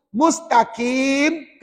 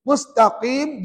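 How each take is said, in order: First: MUSTAQIM with a light front k in place of q; slow MUSTAQIM, q thinned to plain k; wrong thin kaf. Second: MUSTAQIM with a heavy q far back at the uvula; correct deep qaf. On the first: Teacher shows the mistaken word, MUSTAQIM with thin kaf. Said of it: "Jangan dinipiskan jadi kaf". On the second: Teacher contrasts meanings, straight path, MUSTAQIM with deep qaf. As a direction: say MUSTAQIM with thick, back-of-tongue q. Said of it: "mustaqim dengan mustaqim". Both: Shown as a demonstration.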